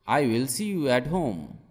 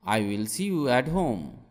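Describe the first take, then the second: No difference in how they are said.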